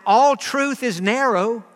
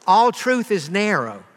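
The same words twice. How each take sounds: First: ALL drawn out slowly with a rise; all truth is narrow, slow and pointed; stress on all. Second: All slowly stressed with a falling tune; slow, falling All truth is narrow. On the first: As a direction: lean on all and take it slow. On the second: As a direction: press All and let it fall. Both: Shown as a demonstration.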